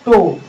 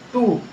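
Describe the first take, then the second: First: The vowel sounds like 'oh'. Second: The vowel sounds like 'oo'. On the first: The speaker calls it right. "यहाँ पर जो है टो होगा" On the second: The speaker calls it wrong. "न कि टू होगा"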